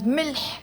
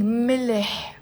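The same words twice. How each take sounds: First: ملح as one syllable, "milh". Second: ملح in two syllables, "mileh"; added helping vowel. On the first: Teacher shows the bare word, single-syllable "milh". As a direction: say ملح with l and h joined, no vowel between. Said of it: "is a one syllable word". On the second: Teacher shows the easier way, two-syllable "mileh". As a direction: slip a short vowel between l and h in ملح. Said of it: "but we're saying ملح". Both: Shown as a demonstration.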